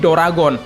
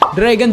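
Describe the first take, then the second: First: An extra vowel is added between consonants. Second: It is said plainly, without extra vowels.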